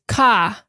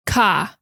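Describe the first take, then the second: First: Said in the usual way. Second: Boston "car" as "cah", no r; Boston accent. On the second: Shown as a demonstration. Grandma's Boston "car" mimicked for laughs. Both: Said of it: "she says car".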